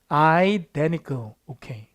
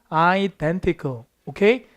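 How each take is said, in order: Both takes have the same delivery.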